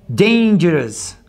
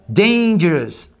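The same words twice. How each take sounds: Both takes have the same delivery.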